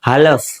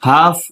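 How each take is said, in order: First: The L sound is pronounced. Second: The L sound is silent. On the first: The speaker calls it wrong. "એલ બોલાતો તો આમ બોલે" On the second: The speaker calls it right. "એલ silent હોય"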